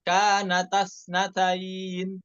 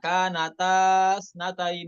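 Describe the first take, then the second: First: The vowel before the joined consonants is short. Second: The vowel before the joined consonants is long. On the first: The speaker calls it right. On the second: The speaker calls it wrong. "bukan, ya, alifnya dibuang"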